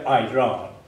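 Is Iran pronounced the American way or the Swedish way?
American. Iran is said with an American-style pronunciation. The speaker calls it wrong. "vårt land heter inte Iran"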